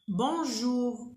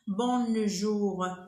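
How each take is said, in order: First: No N consonant is pronounced. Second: An N consonant is pronounced. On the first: The speaker calls it right. "Mais on ne prononce pas. Le N" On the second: The speaker calls it wrong. "On ne dit pas bonjour, bonjour. Non, c'est faux"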